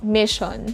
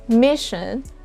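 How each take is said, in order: First: The last vowel is a full o sound. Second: The last vowel is a reduced schwa. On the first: The speaker calls it wrong. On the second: The speaker calls it right.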